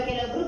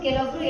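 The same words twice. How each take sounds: Both takes have the same delivery.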